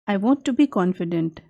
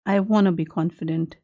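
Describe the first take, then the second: First: 'Want to' is said slowly as two full words. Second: 'Want to' is said fast, blended into 'wanna'.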